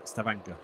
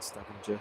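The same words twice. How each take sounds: First: The name is said in a Norwegian-style way. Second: The name is said in an anglicized way. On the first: The speaker calls it right. "Jim's helped me with my uh, pronunciation" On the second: The speaker calls it wrong. "That's probably not how you pronounce it"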